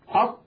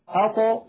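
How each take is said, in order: First: The final t is closed off abruptly, without release. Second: The final t is released with a slight bounce. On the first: The speaker calls it wrong. "بدل أن يقولوا أط" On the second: The speaker calls it right. "يقولون أطو أطو"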